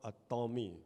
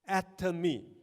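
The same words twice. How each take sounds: First: The stress is on the second syllable. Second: The stress is on the first syllable. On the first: The speaker calls it wrong. "not atomy ... it is not a Tom" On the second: The speaker calls it right. "very atom, very small"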